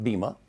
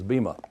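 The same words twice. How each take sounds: First: It is said with the modern Greek pronunciation. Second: It is said with the English pronunciation. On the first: "Modern Greeks call it bema" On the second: "the English pronunciation of it, of course, is bema"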